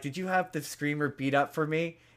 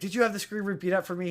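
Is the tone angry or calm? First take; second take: calm; angry. First: It is said in a calm tone. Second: It is said in an angry tone.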